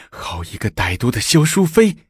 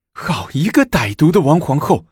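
First: 好一个歹毒的萧淑妃 a bit calmer, the stress falling on 妃; bitter, seething accusation; through gritted teeth. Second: Through gritted teeth. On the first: (咬牙切齿地说“萧淑妃”) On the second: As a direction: spit out 王皇后 in fury. (咬牙切齿地说“王皇后”) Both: A narrator's reading. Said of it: "武则天咬牙切齿地说".

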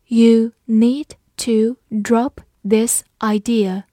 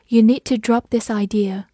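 First: Slow, firm word-by-word reading; slow read-along. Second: Said in the usual way. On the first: Shown as a demonstration. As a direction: give each word its own space for learners. Teacher's slow read-along before normal take. (慢速逐词领读)

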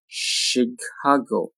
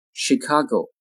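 First: "Chicago" slowly, syllable by syllable; slow careful "Chicago"; drawn-out model. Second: Said in the usual way. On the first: Shown as a demonstration. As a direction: stretch "Chicago" out for learners. Teacher models word slowly, then normally.

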